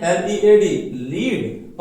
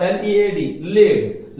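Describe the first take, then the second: First: Slow, loud demonstration of लीड as "leed"; लीड rhyming with need; pronounced leed. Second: Slow, loud demonstration of लेड as "led"; लेड rhyming with bed; pronounced led. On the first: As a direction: spell it, then लीड with long ee. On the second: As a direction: spell it, then लेड with short e. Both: Shown as a demonstration. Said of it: "अलग हो जाएगा pronunciation".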